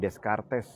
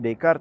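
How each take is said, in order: First: The name is said letter by letter as spelled. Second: The name is said with French pronunciation. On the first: The speaker calls it wrong. "jangan Descartes gitu" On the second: The speaker calls it right. "Bacanya Descartes ya"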